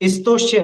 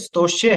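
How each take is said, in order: First: The word begins with an added 'i' vowel. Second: The word begins directly with the 'st' cluster. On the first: The speaker calls it wrong. "स्तोष्य नहीं" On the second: The speaker calls it right. "ये स्तोष्य है"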